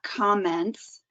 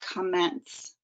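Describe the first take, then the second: First: The first vowel is a full, clear vowel. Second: The first vowel is a reduced uh sound. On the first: The speaker calls it wrong. "it's not commence" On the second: The speaker calls it right. "The vowel sound gets turned into a schwa"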